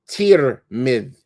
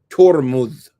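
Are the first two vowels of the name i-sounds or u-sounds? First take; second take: i-sounds; u-sounds. First: Both vowels are i-sounds: tirmidh. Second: Both vowels are u-sounds: turmudh. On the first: "with a kesra on the ta as well as the meme" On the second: "They say it with a dhamma on the ta and the meme"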